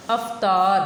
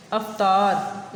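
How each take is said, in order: First: अवतार said as "after", stressed and loud; model pronunciation. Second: अवतार drawn out very slowly as "after"; slow modelled word. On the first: Teacher modelling अवतार to pupils clearly. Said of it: "इसको आफ्टर नहीं बोलना है". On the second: Teacher slowly repeating अवतार for pupils to copy. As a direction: stretch अवतार out syllable by syllable. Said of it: "इसको बोलना है अवतार". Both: Shown as a demonstration.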